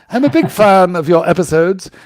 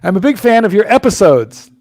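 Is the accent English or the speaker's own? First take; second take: English; own. First: It is read in a put-on English accent. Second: It is read in the speaker's own accent.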